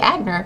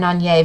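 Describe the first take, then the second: First: The name is said the American way. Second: The name is said the French way. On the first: The speaker calls it wrong. "in American it would be Agner" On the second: The speaker calls it right. "she knows how to pronounce Etienne Anier very well"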